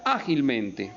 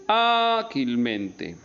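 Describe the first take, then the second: First: Said in the usual way. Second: "Ágilmente" with a long, held Á; stress on Á. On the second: Shown as a demonstration. Teacher showing the accented syllable, long stressed Á in "Ágilmente". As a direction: stretch the first A of "Ágilmente" very slowly. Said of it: "tiene el acento en la A".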